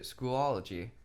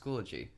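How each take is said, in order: First: The word is said with an extra syllable. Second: The word is said without an extra syllable. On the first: The speaker calls it wrong. "Sorry to break it to anyone who pronounced it Schoology" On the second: The speaker calls it right. "the correct pronunciation is Schoology"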